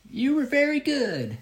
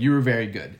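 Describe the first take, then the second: First: Put-on high, drawn-out old lady voice; very slow old woman. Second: Said in the usual way. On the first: Tiny old woman praises the juggler backstage, very slow and high. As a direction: imitate her halting English, pitched way up. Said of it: "she comes up to me and very slow". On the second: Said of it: "I'm taking liberties here".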